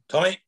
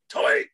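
First: The name is called fairly calmly. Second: The name is called in a panicky voice.

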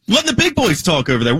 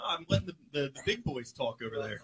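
First: It is said loudly and confidently. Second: It is said quietly and hesitantly.

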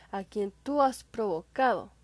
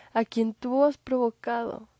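No difference in how they are said.

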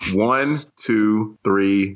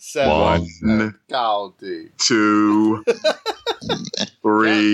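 First: The numbers are counted in an ordinary speaking voice. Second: The numbers are counted in a put-on announcer voice.

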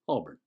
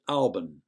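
First: The ending is soft and barely noticeable. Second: The ending is said with no r sound. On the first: "With the soft ending, the listener hardly noticed it" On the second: "as in A-W-B-U-N"

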